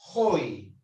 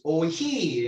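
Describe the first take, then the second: First: The stress falls on the first vowel. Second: The stress falls on the second vowel. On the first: The speaker calls it right. "pero pronuncia si estuviera en el primero" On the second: The speaker calls it wrong. "No es oí"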